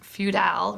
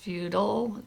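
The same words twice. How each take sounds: First: The second syllable has a full vowel. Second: The second syllable has a reduced uh vowel. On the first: The speaker calls it wrong. "It's not feudal" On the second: The speaker calls it right. "making the uh on the unstressed on the unstressed syllable"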